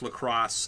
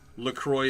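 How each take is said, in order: First: The last syllable is said like 'cross'. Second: The last syllable is not said like 'cross'. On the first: This is how the company says the brand should be said. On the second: This is how the speaker always says the brand.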